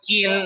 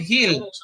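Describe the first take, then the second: First: The word sounds like 'ill', with no h. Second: The word begins with a clear h sound. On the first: The speaker calls it wrong. "I never say Hill like when you're sick" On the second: The speaker calls it right. "I say Hill"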